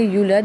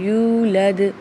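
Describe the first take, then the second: First: The first vowel is short. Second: The first vowel is held long. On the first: The speaker calls it wrong. "यहाँ पे हमने यूलद नहीं पढ़ना" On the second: The speaker calls it right. "बल्कि यूलद पढ़ना है"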